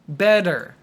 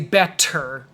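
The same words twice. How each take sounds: First: The middle consonant is a soft D sound. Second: The middle consonant is a crisp T sound. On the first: The speaker calls it right. "It sounds like bed" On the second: The speaker calls it wrong. "don't say better"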